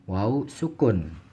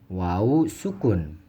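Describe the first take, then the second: Both takes have the same delivery.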